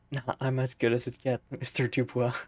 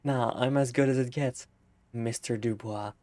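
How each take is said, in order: First: Mock cool reply. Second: Laughing through the line. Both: Real, not acted.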